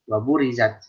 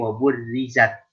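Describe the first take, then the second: First: The r sound is single and short. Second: The r sound is doubled and held longer. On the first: The speaker calls it wrong. "jangan waburizat ... ra'nya pada saat hilang satu" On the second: The speaker calls it right. "ingat dia tasydid"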